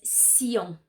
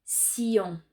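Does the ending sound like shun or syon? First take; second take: syon; syon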